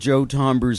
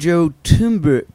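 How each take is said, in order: First: The surname is said in its usual family form. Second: The surname is said to sound like 'tumors'. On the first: This is how the family says the name. The speaker calls it right. "I'll say, please call Joe Tomber's mobile" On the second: A voice assistant gets the name wrong. The speaker calls it wrong. "Siri always mispronounces my family name"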